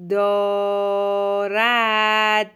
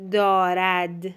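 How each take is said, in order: First: دارد hugely stretched in two syllables; slow dictation. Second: Said in the usual way. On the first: Shown as a demonstration. Teacher dictates for a pupil writing, very drawn-out. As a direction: hold each vowel of دارد on a level pitch.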